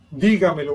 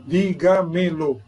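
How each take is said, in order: First: Said in the usual way. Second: "dígamelo" slowly, di-ga-me-lo, each syllable apart. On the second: Shown as a demonstration. Teacher showing students the parts of "dígamelo", syllable by syllable. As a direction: spell out "dígamelo" in slow, separate syllables.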